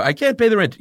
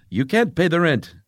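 First: Distressed damsel, high and louder; hammy wailing damsel in distress; silent film melodrama. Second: Villain's melodramatic threat, higher; hammy mustache-twirling villain line; silent film melodrama. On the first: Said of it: "a lady about paying the rent". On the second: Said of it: "You know that old deal?". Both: Acted.

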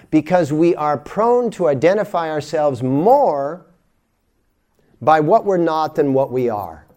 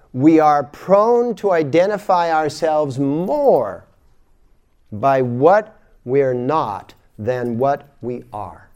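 First: Said in the usual way. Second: Slow and emphatic; slow, deliberate. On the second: Shown as a demonstration. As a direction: spell it out slowly, word by word. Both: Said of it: "repeated slower".

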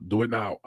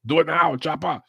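First: Said in the usual way. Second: High, forceful movie-hero parody; mock action-hero catchphrase. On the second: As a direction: push it out as a hammed-up action-film command.

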